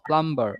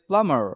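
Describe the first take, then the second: First: The b sound is pronounced. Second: The b sound is silent. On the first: The speaker calls it wrong. "Not প্লাম্বার" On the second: The speaker calls it right. "আসল উচ্চারণ হচ্ছে প্লামার"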